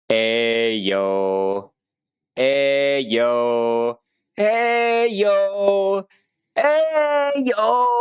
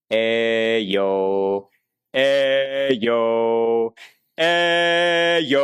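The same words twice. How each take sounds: First: Constricted rising yell. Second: Open-throated build. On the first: Teacher demos the bad example, building from easy to a tight, strained yell. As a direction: build up the volume until the throat chokes into a strained cry. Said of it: "listen for when my voice starts to get constrained". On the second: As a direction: project without strain, throat wide open. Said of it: "but not getting constricted". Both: Shown as a demonstration.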